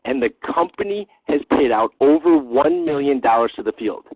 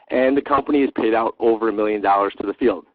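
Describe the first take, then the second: First: It is said with lively excitement. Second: It is said flatly, without excitement. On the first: The numbers are remarkable. The speaker calls it right. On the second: The numbers do not seem impressive. The speaker calls it wrong.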